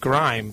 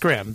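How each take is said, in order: First: The vowel is a long i, rhyming with time. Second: The vowel is a short i, rhyming with him. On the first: The speaker calls it wrong. "I want to say Grime, but that's wrong" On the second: The speaker calls it right. "It's Grimm"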